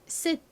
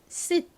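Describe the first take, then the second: First: It is said fast with the t nearly silent. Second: The same.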